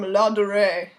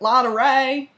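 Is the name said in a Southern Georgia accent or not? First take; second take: not Southern; Southern. First: It is said in her usual accent. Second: It is said in a Georgia Southern accent.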